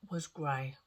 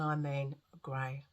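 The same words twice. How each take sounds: First: Said in the usual way. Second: "grey" drawn out slowly for emphasis; slow down and lean on "grey". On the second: Real, not acted. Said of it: "and I mean grey".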